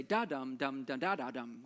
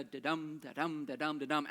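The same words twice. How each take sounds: First: DA-dum dum da da, stresses thrown off; irregular beat. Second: Da-DUM, second syllable stressed; steady chanted da-dum, weight on DUM; regular iambic beat. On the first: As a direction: break the da-dum pattern with jumbled stresses. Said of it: "a curveball in one of the verses". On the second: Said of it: "lead us to expect the". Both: Shown as a demonstration.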